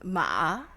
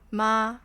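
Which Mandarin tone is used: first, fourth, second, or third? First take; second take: third; first. First: It is said with the third Mandarin tone. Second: It is said with the first Mandarin tone. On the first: It means horse. "the third one is ma, which is horse" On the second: It means mom. "the first one is mom"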